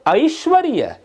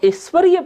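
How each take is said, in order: First: The first vowel is an 'ai' sound. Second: The first vowel is a plain 'e' sound. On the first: The speaker calls it right. "ये ए नहीं है, ये ऐ है।" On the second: The speaker calls it wrong. "इसको ऐश्वर्य पढ़ देते अपन"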